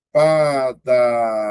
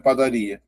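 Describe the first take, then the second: First: "Padaria" very slow, each of four syllables held. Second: Said in the usual way. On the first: Shown as a demonstration. Teacher showing four vowels, "Padaria" slowly drawn out. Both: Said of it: "eu tenho quatro sílabas".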